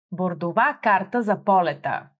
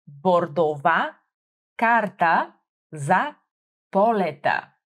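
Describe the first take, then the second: First: Said in the usual way. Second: "Бордова карта за полета" said slowly, each syllable clear; slow it down for the learner to copy; slowed teacher model; slow and careful. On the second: Shown as a demonstration. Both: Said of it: "focusing on my pronunciation".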